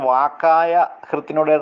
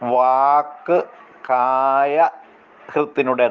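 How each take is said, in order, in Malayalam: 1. ആദ്യ പദം ഒന്നായി ചേർത്താണ് പറയുന്നത്. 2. ആദ്യ പദം രണ്ട് ഭാഗങ്ങളായി വേർതിരിച്ചാണ് പറയുന്നത്. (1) "അത് വാക്കായ ഹൃത്തിനുടെ എന്ന് അല്ല ഉച്ചരിക്കേണ്ടത്" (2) "വാക്ക് കായ ഹൃത്തിനുടെ എന്നാണ്"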